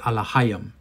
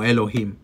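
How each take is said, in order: First: The word begins with an a sound. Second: The word begins with an e sound. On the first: This is the older Hebrew pronunciation. "en un hebreo más antiguo, la pronunciación es Alahayim" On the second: This is the modern Hebrew pronunciation. "en el hebreo moderno, lo pronuncian como Elohim"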